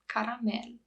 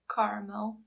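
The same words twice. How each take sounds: First: It is pronounced the Romanian way. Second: It is pronounced the English way. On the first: "just the pronunciation is different" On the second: "it's spelled the exact same way, just the pronunciation is different"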